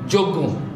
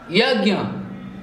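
First: The word starts with a j sound. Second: The word starts with a y sound. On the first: The speaker calls it wrong. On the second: The speaker calls it right.

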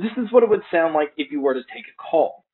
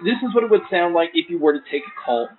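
First: The voice is heard without background crowd noise. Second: The voice is heard over background crowd noise. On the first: "here is a mic test using the FIIL T1XS" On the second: "here is a mic test with the crowd noise being played"

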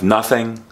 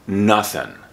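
First: The word ends with a final G sound. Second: The word ends without a final G sound. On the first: "Instead of nothing" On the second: "often they drop the G, and so it sounds like nothing"

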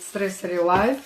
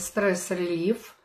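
First: The second part is said with an 'eye' vowel. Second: The second part is said with an 'ee' vowel. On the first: "Кто-то говорит стресс-релайф, неважно" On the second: "Вот сейчас мы получили стресс-релив"

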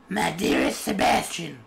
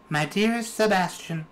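First: It is read in his normal voice. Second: It is read in a put-on female voice.

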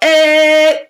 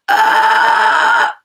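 First: A steady sound with a clear musical pitch. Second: A noisy, chaotic sound with no clear pitch. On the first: "when you hear a pitch, my vocal folds are actually vibrating" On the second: "you see, there's no note in there"

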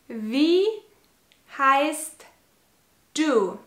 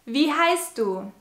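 First: It is said slowly. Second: It is said at normal speed.

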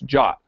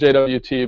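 First: It is said as one short word. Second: It is spelled out as three separate letters. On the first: The speaker calls it right. "but it's JOT" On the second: The speaker calls it wrong. "the suggested pronunciation of JSON web token isn't JWT"

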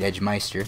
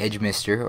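First: The middle syllable sounds like 'mice'. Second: The middle syllable sounds like 'miss'. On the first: This is the speaker's habitual pronunciation of the name. "or say it the way I say it" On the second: This is the proper pronunciation of the name. "depending on how you say it correctly"

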